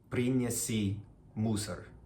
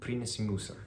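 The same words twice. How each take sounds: First: It is said slowly with full, long vowels. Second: It is said fast with vowels nearly dropped. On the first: "a month ago, I might have pronounced it like this" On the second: "it's really fast, and the vowels basically, they almost don't show up"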